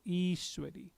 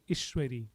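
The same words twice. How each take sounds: First: The first vowel is held long. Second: The first vowel is kept short. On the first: The speaker calls it right. "So I has a bar over it" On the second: The speaker calls it wrong. "Had the I not had the bar over it, it will be Ishwari, which is not the right way to pronounce it"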